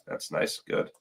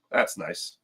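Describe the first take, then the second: First: Breathy unvoiced aside; whisper. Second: Dropped low and soft; low mutter. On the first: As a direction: whisper it to yourself. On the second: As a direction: mutter it under your breath. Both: Real, not acted. Repeats remark, second whispered.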